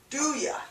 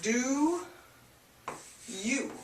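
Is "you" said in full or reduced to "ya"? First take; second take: reduced; full. First: The word you is reduced to ya. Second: The word you is said in full. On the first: "changes to do ya" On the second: "do you changes to"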